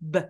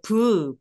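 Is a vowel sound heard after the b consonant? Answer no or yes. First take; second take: no; yes. First: The b is released with no added vowel. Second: The b is followed by an added vowel. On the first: The speaker calls it right. "비음만 소리 내듯이" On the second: The speaker calls it wrong. "브 이렇게 소리 내시는 분들 정말 많거든요"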